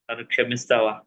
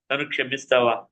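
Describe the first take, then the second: First: Low, broken plea for forgiveness; husband at wife's feet, lower and broken, begging forgiveness; tearful plea. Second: Said in the usual way. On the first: Retold or imitated. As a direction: beg your wife to forgive you. Begging wife at her feet.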